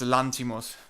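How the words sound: The name is said with a Greek pronunciation. The speaker calls it right. "he's Greek. It's Lanthimos"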